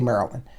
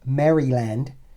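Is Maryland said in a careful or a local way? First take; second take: local; careful. First: Maryland is said the local, clipped way. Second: Maryland is said carefully, every syllable clear. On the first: "I'm from Maryland. We say Maryland" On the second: "I know the pronunciation police are out there"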